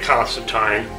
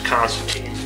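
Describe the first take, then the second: First: The name is said the British way. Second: The name is said the American way. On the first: "In British would say Constantine" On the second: "Americans would often say it as Constantine"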